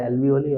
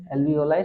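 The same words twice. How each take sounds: First: Alveoli said al-vee-oh-lee, last syllable lee; alveoli ending in lee. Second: Alveoli said al-vee-oh-lie, last syllable lie; alveoli ending in lie. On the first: Teacher to students, the other pronunciation: alveoli ending in lee. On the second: Teacher to students, first pronunciation: alveoli ending in lie. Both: Shown as a demonstration. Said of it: "some people say alveoli also".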